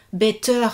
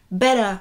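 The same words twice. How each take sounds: First: English teacher modelling "better" the American way; American accent. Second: "better." said the French way, flat and even on both syllables; English tutor mimicking how a French learner says "better."; French accent. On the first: Teaching a student, "better" said in an American accent. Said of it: "lui donner l'accent américain en premier". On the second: Showing her student the French accent on "better.". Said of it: "on va dire, accent français". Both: Shown as a demonstration.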